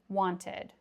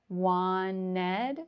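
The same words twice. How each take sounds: First: A soft T sound is pronounced in the middle. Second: The T sound in the middle is dropped. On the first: "I probably would pronounce the T, ... A very soft T" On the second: "We would drop the T altogether"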